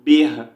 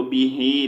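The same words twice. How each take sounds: First: "बिह" closed on an audible h; pausal reading. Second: "बिही" with a long final ee; non-pausal reading. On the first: Teacher showing how to read at a stop, pausal "बिह". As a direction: cut the final vowel, end "बिह" on breath. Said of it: "वक़्फ़ की सूरत में हमने पढ़ना है". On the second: Teacher showing the form without a stop, connected "बिही". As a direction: sound the vowel after the h in "बिही". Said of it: "वक़्फ़ नहीं करेंगे तो बिही". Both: Shown as a demonstration.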